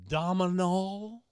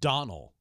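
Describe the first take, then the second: First: The name is said with an M sound. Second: The name is said without an M sound. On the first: The speaker calls it wrong. "Dominal, like dominoes" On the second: The speaker calls it right. "You don't pronounce the M"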